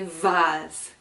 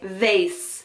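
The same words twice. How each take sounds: First: The word is said in the British pronunciation. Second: The word is said in a non-British pronunciation. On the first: This is how it is said in England. "In England, we say vase" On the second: Some other speakers say it this way. "Some people say vase"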